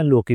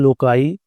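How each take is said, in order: First: The word has a k sound and ends in 'ee'. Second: The word ends with an 'eye' sound after k. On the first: "लोकी भी पढ़ते हैं" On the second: "लोकाई मुझे ज़रा बेहतर लगता है"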